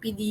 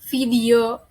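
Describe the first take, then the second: First: The word starts with a P sound. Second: The word starts with a V sound. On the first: An uneducated speaker says it this way. "yang tidak terpelajar yaitu menggunakan P" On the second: An educated speaker says it this way. "video pakai V"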